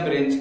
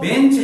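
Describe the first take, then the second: First: The word begins with a br sound. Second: The word begins with a plain b sound. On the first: The speaker calls it wrong. "आप अज्ञानता बस उसको ब्रेंच बोल देते हो" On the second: The speaker calls it right. "शुद्ध शब्द तो बेंच है"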